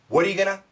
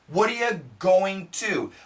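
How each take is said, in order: First: Going to is reduced to a single word, gonna. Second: Going to is said in full, two words. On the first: "Usually we say gonna" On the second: "we don't say going to. You can, it's perfect"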